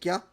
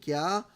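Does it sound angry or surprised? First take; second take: surprised; angry. First: It is short, sudden and surprised. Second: It is loud, drawn out and angry.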